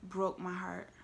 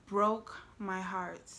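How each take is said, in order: First: Said in the usual way. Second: Drawn out word by word; slow, weighted repeat. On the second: Real, not acted. Storyteller recalling his heartbroken look, slow and weighted. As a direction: let each word land slowly.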